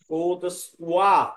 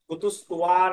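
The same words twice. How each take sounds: First: The consonant before the last vowel sounds like w. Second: The consonant before the last vowel sounds like b. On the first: The speaker calls it right. "ব ব বলবে না" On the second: The speaker calls it wrong. "কুতুস্তুয়া না"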